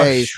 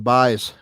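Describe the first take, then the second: First: The vowel is said like 'ay' in 'bays'. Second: The vowel is said as the spelling suggests. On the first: The speaker calls it right. "It's the U is pronounced like an A" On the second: The speaker calls it wrong. "we were saying it wrong"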